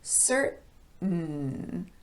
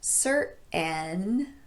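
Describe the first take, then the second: First: The N follows directly with no vowel. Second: A vowel is heard after the T. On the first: The speaker calls it right. "but certain" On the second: The speaker calls it wrong. "this word is not certain"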